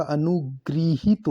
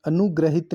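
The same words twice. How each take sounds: First: अनुगृहित drawn out as "anu-gri-hit"; correct pronunciation. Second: अनुग्रहित said "anugrahit"; wrong pronunciation. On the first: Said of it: "अनुगृहित होता है". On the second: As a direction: say अनुग्रहित with "gra". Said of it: "अनुग्रहित नहीं होता". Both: Shown as a demonstration.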